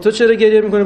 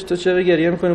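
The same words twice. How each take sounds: First: «چرا» punched, raised pitch and louder; louder retold question. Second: Said in the usual way. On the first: Passerby asking the second crier, stress on «چرا». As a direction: hit «چرا» hard as a puzzled asker. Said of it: "گفت". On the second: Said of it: "گفتش".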